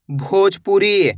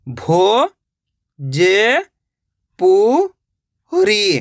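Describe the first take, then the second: First: Said in the usual way. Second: Bhojpuri split into भो, ज, पु, री with long pauses; syllable by syllable. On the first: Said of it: "तो मिलके बन जाएगा". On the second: Shown as a demonstration. Teacher showing it once more, Bhojpuri read slowly syllable by syllable. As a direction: sound out Bhojpuri one drawn-out syllable at a time. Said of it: "एक एक अक्षर का उच्चारण करके".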